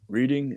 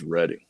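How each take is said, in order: First: It is said in a northern accent. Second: It is said in a southern accent. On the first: "if you're from the north" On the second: "if you're from the south"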